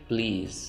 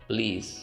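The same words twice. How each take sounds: No difference in how they are said.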